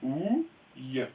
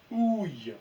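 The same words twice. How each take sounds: First: Ouille dit lentement, comme un mot lu en classe; lecture modèle. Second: Said in the usual way. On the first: Shown as a demonstration. (Ouille lu en modèle) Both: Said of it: "je vous laisse lire".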